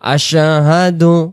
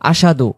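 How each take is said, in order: First: The word is pronounced clearly, each sound distinct. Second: The word is pronounced unclearly, with sounds blurred. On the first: The speaker calls it right. "এখানে স্পষ্ট করে আমরা বলবো" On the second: The speaker calls it wrong. "এই শব্দটা অনেকে আমরা বলে ফেলি"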